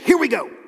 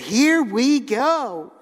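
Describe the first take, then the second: First: It sounds like a pumped-up sports cheer. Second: It sounds relaxed rather than like a cheer. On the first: A game or challenge is about to begin. The speaker calls it wrong. "like something you would say before playing a sport or something" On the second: Now the good time can finally start. The speaker calls it right. "The way they really meant it to be said"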